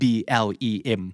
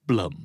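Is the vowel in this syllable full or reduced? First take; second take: full; reduced. First: The syllable has a full, clear vowel. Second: The syllable has a reduced, weak vowel. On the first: The speaker calls it wrong. "เบลมชัดๆก็ไม่ใช่เบลมนะครับ" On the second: The speaker calls it right. "blum ไม่เบลมนะครับ"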